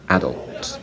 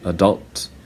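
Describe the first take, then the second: First: It is said in a British accent. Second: It is said in an American accent. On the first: "British people say" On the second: "Americans say"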